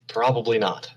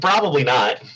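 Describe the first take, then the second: First: The put-on character voice is weak and unconvincing. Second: The put-on character voice is strong and convincing. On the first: The speaker calls it wrong. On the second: The speaker calls it right.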